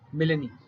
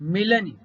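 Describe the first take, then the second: First: The final vowel is long. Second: The final vowel is short. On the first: The speaker calls it wrong. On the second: The speaker calls it right.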